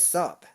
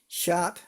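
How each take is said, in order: First: The word begins with an s sound. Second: The word begins with a sh sound. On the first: "He says sop" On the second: "might say sh shop"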